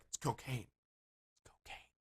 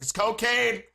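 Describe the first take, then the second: First: Hushed, fading into a drawn-out whisper; furtive whisper. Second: Loud, high exasperated yell; mock yelling. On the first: Retold or imitated. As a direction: whisper it like a secret offer. Acting out furtive drug offer in bathroom. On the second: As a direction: yell it as if not understood. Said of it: "You're yelling".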